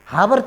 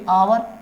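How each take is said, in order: First: The word begins with an h sound. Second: The word begins with a vowel sound. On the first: The speaker calls it wrong. "हावर तो पढ़ेंगे नहीं" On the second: The speaker calls it right. "क्या पढ़ेंगे? आवर"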